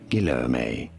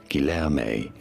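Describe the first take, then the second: First: It is said with English pronunciation. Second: The same.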